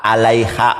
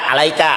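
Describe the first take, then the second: First: The middle consonant is a breathy h sound. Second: The middle consonant is a hard k sound. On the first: The speaker calls it right. "kaf tanpa dages dibacanya seperti huruf H" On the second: The speaker calls it wrong. "alaiha dibaca alaika"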